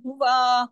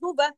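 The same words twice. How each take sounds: First: The final vowel is drawn out long. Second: The final vowel is kept short. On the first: An extra letter is added to the word. The speaker calls it wrong. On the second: No extra letter is added to the word. The speaker calls it right.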